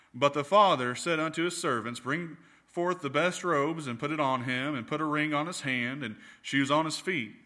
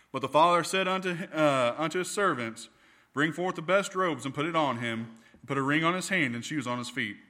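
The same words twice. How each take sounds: Both takes have the same delivery.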